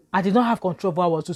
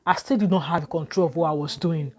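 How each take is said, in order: First: Faster insistent repeat, "not" stressed; quick forceful restatement; emphatic repeat. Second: Said in the usual way. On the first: Real, not acted. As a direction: drive the point home.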